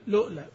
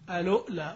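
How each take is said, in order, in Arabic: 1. تبدأ مباشرة بصوت L. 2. تبدأ بصائت قبل حرف L. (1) "والثالث لؤلا" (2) "والثاني ألؤلا"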